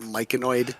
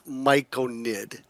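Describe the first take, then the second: First: The word ends with an 'oid' sound. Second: The word ends with a short 'nid' sound. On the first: The speaker calls it wrong. "people not pronouncing the word correctly. Their eyes see the O in it" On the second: The speaker calls it right. "Most people say it as Myconid, which is fine"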